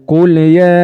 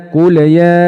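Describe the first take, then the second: Both takes have the same delivery.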